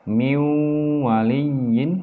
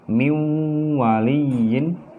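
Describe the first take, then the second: No difference in how they are said.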